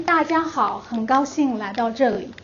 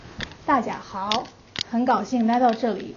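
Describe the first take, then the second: First: Standard Mandarin. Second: Hometown Mandarin dialect. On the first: Teacher showing the class the sentence again, in standard Mandarin. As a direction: clear standard Mandarin, lifted opening. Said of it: "And again, in Mandarin". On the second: Teacher showing the class her hometown variety, in regional Mandarin dialect. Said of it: "In my hometown dialects". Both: Shown as a demonstration.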